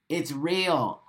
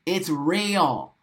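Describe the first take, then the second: No difference in how they are said.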